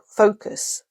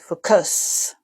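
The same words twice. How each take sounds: First: The second vowel is a weak, reduced schwa. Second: The second vowel is a full, clear u. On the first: The speaker calls it right. "the accent is actually on fo- focus" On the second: The speaker calls it wrong. "You don't say focus"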